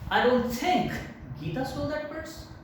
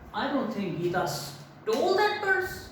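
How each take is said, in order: First: The word think carries the main stress. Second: The word stole carries the main stress. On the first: The speaker cannot even imagine she did it. "If you give stress on think" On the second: She took it some other way than stealing. "if I give stress on stole"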